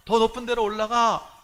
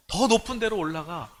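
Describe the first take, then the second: First: 더 높은 데로 올라가 pushed higher and louder the second time; rising retold shout; louder repeated call. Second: Said in the usual way. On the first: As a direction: urge the kids up again, more insistently. Shouting to children in dream.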